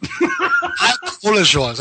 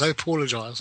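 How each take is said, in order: First: Slow, with a laugh through the words; laughing apology. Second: Said in the usual way. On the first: Real, not acted. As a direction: apologize while laughing at yourself. Laughing apology after being corrected.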